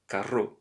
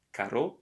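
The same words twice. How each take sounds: First: Carro with a trilled rr, rolled and raspy; rolled double R. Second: Caro with a single tapped r, short and light. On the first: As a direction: roll the rr in carro hard. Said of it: "but carro". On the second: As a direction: say caro with one quick flap of the r. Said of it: "you don't have to say". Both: Shown as a demonstration.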